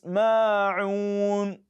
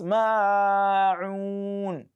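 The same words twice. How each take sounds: First: The long vowel lasts only two counts. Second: The long vowel is stretched too far. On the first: The speaker calls it right. "just twice" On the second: The speaker calls it wrong. "Many people make this mistake too"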